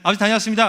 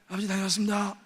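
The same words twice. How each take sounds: First: The voice is clear and normal. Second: The voice is put on as hoarse.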